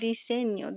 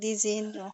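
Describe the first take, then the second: First: The middle consonant is a clear s sound. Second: The middle consonant is a buzzing z sound. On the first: The speaker calls it right. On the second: The speaker calls it wrong.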